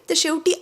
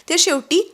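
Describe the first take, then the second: No difference in how they are said.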